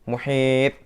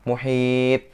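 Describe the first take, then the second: The two takes are said the same way.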